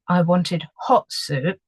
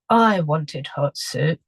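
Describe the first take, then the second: First: The stress falls on the word hot. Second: The stress falls on the word I. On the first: The soup that came was cold. "I'm emphasizing the hot" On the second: Someone else got the soup. "obviously the soup has been given to someone else"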